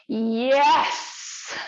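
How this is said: The yes sounds lively and enthusiastic. "when we move into enthusiasm"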